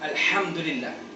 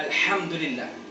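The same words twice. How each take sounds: First: The h is made deep in the throat. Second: The h is made deep in the throat.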